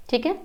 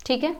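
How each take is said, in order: Both takes have the same delivery.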